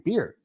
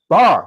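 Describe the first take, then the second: First: The vowel is close, sounding like 'beer'. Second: The vowel is open, sounding like 'bar'. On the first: This is how he himself says it. "I say beer" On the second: This is how people around him say it. "when somebody say, "Hey, you want a bar?""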